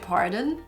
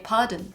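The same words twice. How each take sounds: First: It is said in an American accent. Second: It is said in a British accent. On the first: "in America you would say pardon" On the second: "In Britain you say pardon"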